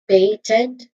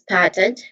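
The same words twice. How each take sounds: First: The first syllable has a long 'ay' vowel. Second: The first syllable has a short vowel. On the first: "the first syllable, pay, it has a diphthong sound" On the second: "first syllable uses a short uh, vowel sound"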